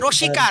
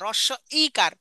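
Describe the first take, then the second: First: The parts are blurred together into one word. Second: The parts are kept distinct and clearly spoken. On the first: The speaker calls it wrong. "এটা ভুল কথা" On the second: The speaker calls it right. "রসিকার না"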